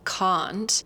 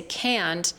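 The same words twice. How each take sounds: First: "can't" British-style with a round, deep ah; British pronunciation. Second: "can't" with super flat, stretched American A. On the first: Teacher contrasting accents, British "can't" with round vowel. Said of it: "a round, deep sound". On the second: Teacher contrasting with British, flat stretched American "can't". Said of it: "it is super flat". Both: Shown as a demonstration.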